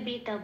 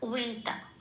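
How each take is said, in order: First: The word begins with a b sound. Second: The word begins with a w sound. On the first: This is how Bengali speakers say it. "আমরা বাংলায় বেটা বলি" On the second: This is how it is said in Sanskrit. "ওরা বলবে"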